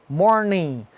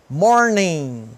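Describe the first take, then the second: Both takes have the same delivery.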